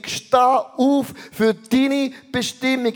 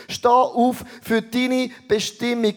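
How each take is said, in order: First: "Steh auf für deine Bestimmung" slower, with weight on "auf"; slower emphatic repeat. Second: Said in the usual way. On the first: Shown as a demonstration. Preacher urging the congregation to stand up, emphatic. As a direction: drive the call home.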